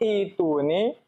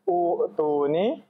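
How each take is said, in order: First: The word begins with an 'i' vowel. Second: The word begins with a 'u' vowel. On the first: The speaker calls it right. "Kok itu nih" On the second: The speaker calls it wrong. "bukan u tu nih"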